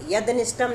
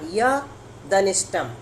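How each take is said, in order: First: The d sound closes the first syllable. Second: The d sound starts the second syllable. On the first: The speaker calls it wrong. "नहीं, नहीं तो हलंत हो जाएगा" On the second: The speaker calls it right. "ऐसा करना"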